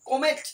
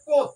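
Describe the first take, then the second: First: The name is said with two syllables, 'ko-met'. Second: The name is said with one syllable, 'kot'. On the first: This is how it is read in English. "ইংরেজিতে যদি এটা আলোচনা মানে উচ্চারণ করতে চাই" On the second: This is how it is said in Bengali. "বাংলায় হচ্ছে কোত"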